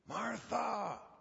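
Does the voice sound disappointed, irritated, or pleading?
pleading. The name is said in a pleading tone. The speaker is begging her to listen. "Was it pleading?"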